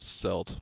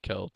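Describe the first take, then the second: First: The word begins with a soft s sound. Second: The word begins with a hard k sound. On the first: The speaker calls it wrong. "and not Celt" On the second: The speaker calls it right. "it's definitely Celt"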